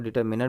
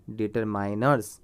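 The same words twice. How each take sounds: First: डिटरमिनर with short "i" in मि; डिटरमिनर, short मि in place of माइ; determiner with MIN. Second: डिटरमाइनर्स with "माइ" said like "my"; डिटरमाइनर्स, drawn out with a long "eye" vowel in माइ; determiners with MINE. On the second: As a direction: say डिटरमाइनर्स slowly, third syllable rhyming with "sigh". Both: Shown as a demonstration. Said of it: "कुछ लोग डिटरमिनर भी बोलते हैं".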